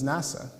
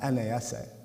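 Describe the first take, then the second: First: It is said as one single word. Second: Each letter is said separately. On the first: The speaker calls it right. "we pronounce it as NASA, a separate word" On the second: The speaker calls it wrong. "not NASA"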